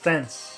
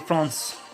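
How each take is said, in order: First: The word is said with English pronunciation. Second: The word is said with French pronunciation. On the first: "In English you say France" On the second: "In French you say France"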